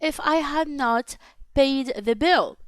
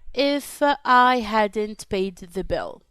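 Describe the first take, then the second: First: Had not is said as two full words. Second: Had not is shortened to one word.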